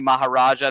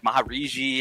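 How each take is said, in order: First: The name ends with the sound 'ja'. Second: The name ends with the sound 'ji'. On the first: The speaker calls it right. "I think it was originally Maharaja" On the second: The speaker calls it wrong. "Now it's like Mahariji"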